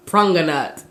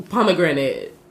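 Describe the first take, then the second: First: "pranganat" said as Patois for pomegranate; imitated Patois pronunciation, "pranganat"; Jamaican Patois. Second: Said in the usual way. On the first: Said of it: "translating it into the Patois dialect". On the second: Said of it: "he was like, "Say".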